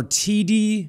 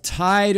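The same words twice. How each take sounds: First: "Tidi" as two syllables, TEE-dee; alternative pronunciation. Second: "Tide" as one syllable, rhyming with side; tentative pronunciation. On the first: Newscaster guessing at a volcano's name, "Tidi" as TEE-dee. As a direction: say "Tidi" with two long ee sounds. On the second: Newscaster guessing at a volcano's name, "Tide" in one syllable. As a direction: say "Tide" like the English word tide. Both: Shown as a demonstration. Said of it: "not sure exactly how it's pronounced".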